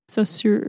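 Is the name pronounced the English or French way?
English. The name is said with an English pronunciation. "if you prefer"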